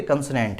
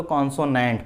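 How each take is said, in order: First: कंसोनेंट with reduced vowels, kun-suh-nent; short "uh" sounds in कंसोनेंट; correct pronunciation. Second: कॉन्सोनेंट with full "o" vowels, kon-so-nent; common misreading. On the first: Teacher correcting the reading for students, pronunciation. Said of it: "कंसोनेंट है". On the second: Teacher showing how people read the written word, misreading. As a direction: round both first vowels of कॉन्सोनेंट. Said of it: "बोल लो कॉन्सोनेंट पढ़ते हैं". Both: Shown as a demonstration.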